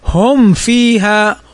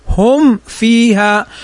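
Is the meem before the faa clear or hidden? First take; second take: clear; clear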